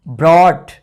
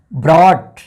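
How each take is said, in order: Both takes have the same delivery.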